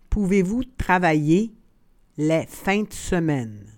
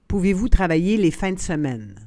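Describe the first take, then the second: First: The phrase is said slowly and carefully. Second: The phrase is said at natural conversational speed. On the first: "then slowly said in French" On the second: "and then in communicational Canadian French"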